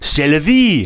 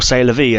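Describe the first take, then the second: First: It is said with a French-sounding accent. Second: It is said with an English-sounding accent. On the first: The speaker calls it right. "That's quite a good French accent" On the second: The speaker calls it wrong. "but with a better French accent than what I do"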